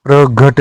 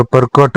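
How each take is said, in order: First: प्रघट with a voiced g sound; wrong form. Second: प्रकट with a hard k; unvoiced k in the middle of प्रकट; correct form. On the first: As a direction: say pra-ghat for प्रघट. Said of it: "नहीं होता". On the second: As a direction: say pra-kat for प्रकट. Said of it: "होता है". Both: Shown as a demonstration.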